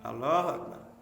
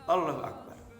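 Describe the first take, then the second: First: The sounds are pronounced in a careless, slurred way. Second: The sounds are pronounced in a careless, slurred way.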